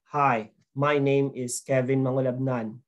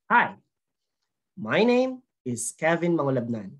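First: The pitch stays level with little change. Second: The pitch moves up and down a lot. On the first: The speaker calls it wrong. "That is flat, dull, boring, dry" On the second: The speaker calls it right. "add variations in the tone"

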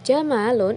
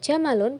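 First: The vowel after the m is long. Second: The vowel after the m is short. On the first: It is a different word with another meaning. The speaker calls it wrong. "itu artinya sudah berbeda" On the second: It means camel. The speaker calls it right. "pendek tanpa alif"

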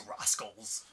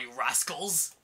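First: The voice is pitched very low. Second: The voice is pitched higher.

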